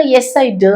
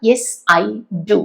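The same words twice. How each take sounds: First: Yes, I do with do reduced; clipped weak do; too-light do; wrong weak do. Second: Yes, I do with do full and stressed; strong do; strong final do. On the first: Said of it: "എന്ന് പറയില്ല". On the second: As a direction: land firmly on do. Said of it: "അത് വെച്ചാണ്". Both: Shown as a demonstration.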